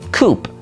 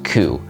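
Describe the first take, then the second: First: The word ends with an audible P sound. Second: The word ends on the vowel, no P. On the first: The speaker calls it wrong. "it's very easy to assume that this word ... is pronounced coup" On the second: The speaker calls it right. "it really is just coup"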